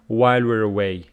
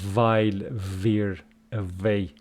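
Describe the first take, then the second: First: The w sounds are made with rounded lips. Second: The w sounds are made with teeth on lip. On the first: The speaker calls it right. "All of these are round, and you should say" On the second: The speaker calls it wrong. "it's not labiodental, and you cannot say while we're away. Wrong"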